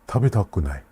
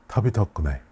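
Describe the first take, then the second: No difference in how they are said.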